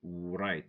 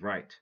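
First: A W sound is heard before the R at the start. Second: No W sound is heard before the R at the start. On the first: The speaker calls it wrong. "don't say right" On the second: The speaker calls it right. "say right"

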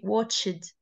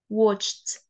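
First: The ending is said as an extra syllable. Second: The ending is said as a short t sound. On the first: The speaker calls it wrong. "we don't say watched" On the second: The speaker calls it right. "say it as watched. Like ED is pronounced as T"

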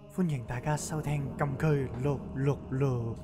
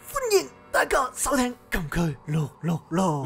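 First: It is said softly, with low volume. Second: It is said loudly, with strained, forceful energy. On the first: "到真系开嗰阵就突然间好细声" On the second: "你做紧健身啊？"

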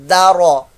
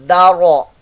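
No difference in how they are said.

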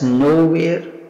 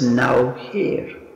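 First: It is said as a single word. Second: It is split into two separate words. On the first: "You can pronounce it as nowhere" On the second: "as well as now here"

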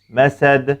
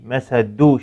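First: The word ends in a strong bounced d. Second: The word ends in a full u vowel. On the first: The speaker calls it right. "dilimi sadece dal harfinden geri çekiyorum ve kuvvetli bir sesin çıkmasını sağlıyorum" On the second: The speaker calls it wrong. "şekline benzetmeden"

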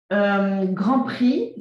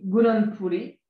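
First: It is pronounced with French sounds. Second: It is pronounced with Japanese sounds.

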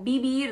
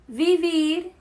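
First: The first sound is a b sound. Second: The first sound is a v sound.

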